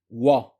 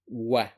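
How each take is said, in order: First: The sound is heavy and full-mouthed. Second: The sound is light and thin. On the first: The speaker calls it wrong. "Common mistake is to say wa. That is wrong" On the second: The speaker calls it right. "This is a light letter. The correct pronunciation is wa"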